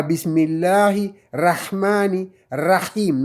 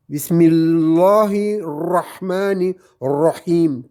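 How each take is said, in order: First: Bismillahirrahmanirrahim with the ra as an ordinary open a; wrong plain ra. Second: Bismillahirrahmanirrahim, very slow, ra rounded toward ro; ra almost like O. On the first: Teacher showing the mistake to avoid, open a in ra. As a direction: say the ra flat, the wrong way. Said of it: "Non, c'est pas bon". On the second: Teacher giving the correct reading after the mistake, rounded ra. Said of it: "presque comme un O". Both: Shown as a demonstration.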